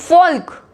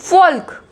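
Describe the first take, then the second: The two takes are said the same way.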